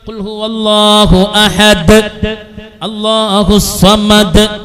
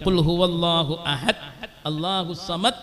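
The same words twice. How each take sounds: First: The final consonants end with an echoing bounce. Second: The final consonants stop abruptly without echo. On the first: The speaker calls it right. "ഒരു മുഴക്കത്തോടുകൂടെ ഉച്ചരിക്കണം" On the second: The speaker calls it wrong. "അങ്ങനെ ഉച്ചരിക്കാൻ പറ്റൂല"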